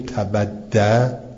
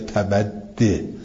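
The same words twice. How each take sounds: First: The word ends with an a vowel. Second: The word ends with an i vowel. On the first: "یا فتح میدیم" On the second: "یا التقای ساکنن کسره میدیم"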